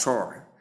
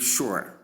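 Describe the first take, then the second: First: "sure" said like "shore"; long O vowel. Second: "sure" said as "shoo-er"; ua diphthong. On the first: Teacher transcribing the first sure, long O. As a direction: say "sure" with an open O. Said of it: "and long O sound". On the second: Teacher transcribing the second sure, ua sound. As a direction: say "sure" with an oo-uh glide. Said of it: "the ua sound to give". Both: Shown as a demonstration.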